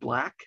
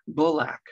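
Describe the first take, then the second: First: The word is said as one syllable. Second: An extra vowel makes the word two syllables. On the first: The speaker calls it right. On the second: The speaker calls it wrong.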